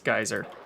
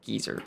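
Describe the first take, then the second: First: The first syllable sounds like 'guy'. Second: The first syllable sounds like 'gee'. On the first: "how I pronounce geyser" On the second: "the British pronunciation of geyser?"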